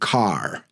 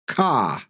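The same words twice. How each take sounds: First: The final R is pronounced. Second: The final R is dropped. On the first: "instead of car" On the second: "their accent is non-rhotic"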